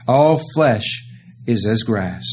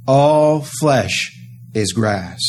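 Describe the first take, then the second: First: "All flesh is as grass" said slowly and deliberately; slow it right down to drive it home; slow solemn repeat. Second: Said in the usual way. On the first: Acted. Preacher repeats the cry.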